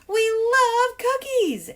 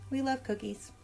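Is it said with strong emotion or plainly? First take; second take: strong emotion; plainly. First: It is said with very strong emotion. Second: It is said plainly, without strong emotion.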